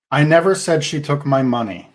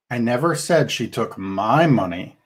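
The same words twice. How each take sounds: First: "never" punched hardest, falling tune at the end; stress on NEVER. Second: "said" stressed most, rest of the line lighter. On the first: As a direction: lean on the word "never". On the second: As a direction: lean on the word "said". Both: Shown as a demonstration. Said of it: "a different meaning depending on which word you emphasize".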